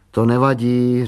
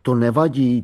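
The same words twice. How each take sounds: First: Encouraging. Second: Mock imitation. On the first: A narrator's reading. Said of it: "řekla povzbudivě". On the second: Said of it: "To je, jako by mi rovnou řekla".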